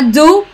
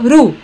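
First: It starts with a clear d sound. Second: It starts with a quick r-like tap. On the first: The speaker calls it wrong. "Não é do" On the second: The speaker calls it right. "ela fala ru"

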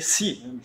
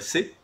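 First: The letter is named as English says it. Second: The letter is named as French says it. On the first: "En anglais, c'est si" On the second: "si je dis le C en anglais ou en français, c'est ben, C"

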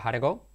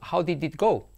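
First: The words are reduced and run together. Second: Each word is said clearly and separately. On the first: This is how a native speaker says it. "Pero el nativo dice" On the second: This is how a learner would say it. "Si tú dices"

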